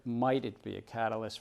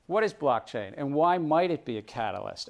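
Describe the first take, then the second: First: Said in the usual way. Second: Might leaned on, a touch stronger; stress on might. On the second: Shown as a demonstration. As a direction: put weight on might, then catalyst. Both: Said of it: "I emphasize the word might".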